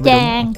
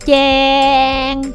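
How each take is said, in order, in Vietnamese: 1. Nguyên âm chỉ được kéo dài vừa phải. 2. Nguyên âm được kéo dài khoảng một giây. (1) "Kéo dài nữa" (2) "Cái đó dài quá, đó là 1 giây rồi lố nha"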